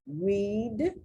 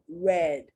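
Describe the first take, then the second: First: The vowel is long, like in 'seed'. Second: The vowel is short, like in 'bed'. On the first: It is the present tense. "I like to read the newspaper" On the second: It is the past tense. "I read the book, parts of the book yesterday"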